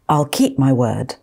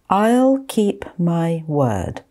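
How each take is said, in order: First: The phrase is spoken at normal speed. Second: The phrase is spoken slowly. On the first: "Then I'll say them at normal speed" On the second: "I'm going to say them slowly first"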